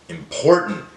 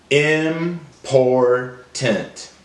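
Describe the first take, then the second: First: Said in the usual way. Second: "Important" slowly in three separate pieces; broken into syllables. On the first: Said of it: "build it back together". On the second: Shown as a demonstration. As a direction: say "Important" as im, por, tant, with gaps. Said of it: "break down the words into syllables".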